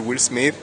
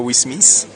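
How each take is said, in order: First: It is pronounced with an English accent. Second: It is pronounced with a French accent. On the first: "je dis [name]" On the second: "je dis pas Will Smith"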